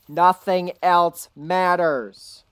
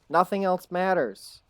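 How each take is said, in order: First: It is said noticeably louder. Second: It is said at normal volume.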